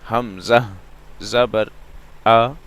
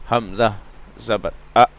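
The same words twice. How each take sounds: First: The final vowel has a medium length. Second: The final vowel is cut off abruptly. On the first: The speaker calls it right. "ना मैं खींच रहा हूं ना झटका दे रहा हूं, दरमियानी आवाज है" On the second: The speaker calls it wrong. "ये भी गलत है, क्योंकि हम झटका दे रहे हैं"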